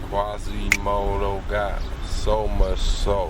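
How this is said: The voice is low and slow. "I have to rap like"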